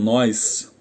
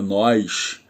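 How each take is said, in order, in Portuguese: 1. A consoante final é um s sibilado. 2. A consoante final é um sh chiado. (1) "Os paulistas falam" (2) "Nós cariocas falamos muito com X"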